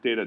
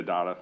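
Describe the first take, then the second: First: "data" said as DAY-tuh; DAY-tuh pronunciation. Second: "data" said as DAH-tuh; DAH-tuh pronunciation. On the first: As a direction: give "data" the vowel of "day". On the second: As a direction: give "data" an "ah" in the first syllable. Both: Shown as a demonstration. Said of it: "our enunciation of various terms".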